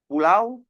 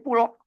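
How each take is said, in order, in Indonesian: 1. Kata itu berakhir dengan diftong au penuh. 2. Kata itu berakhir dengan vokal tunggal o yang pendek. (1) "bunyi diftong" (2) "dibuat pendek"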